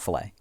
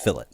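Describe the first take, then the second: First: The word ends with an 'ay' sound. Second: The word ends with an 'it' sound. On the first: The speaker calls it wrong. "It's not fillet. We here put that fancy little a little mwah to everything" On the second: The speaker calls it right. "just if if you were just pronouncing the word F I L L E T, it's fillet"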